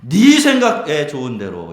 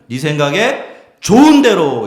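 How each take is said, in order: First: The emphasis falls on 네 생각에. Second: The emphasis falls on 좋은. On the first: Do whatever you yourself want. "첫 번째로는 네 생각에 좋은 대로 이렇게 읽을 수가 있어요" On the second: Consider what is truly good and decide. "두 번째는 네 생각에 좋은 대로 이렇게 읽을 수가 있죠"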